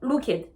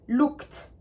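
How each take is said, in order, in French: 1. La fin se prononce comme une syllabe en plus. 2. Le mot se termine par un son T bref. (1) "je ne veux pas entendre looked" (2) "Vous entendez bien le son T que je fais à la fin?"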